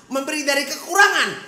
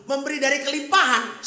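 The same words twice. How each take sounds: First: Loud, high emphatic preaching; preaching loudly. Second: Raised, high preaching voice; preaching loudly. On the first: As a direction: drive the point home with force. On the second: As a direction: proclaim it to the congregation, loud and high. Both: Acted. Preacher contrasts giving in sermon.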